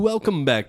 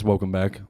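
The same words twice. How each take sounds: First: It is said in a put-on host voice. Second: It is said in a plain, ordinary voice.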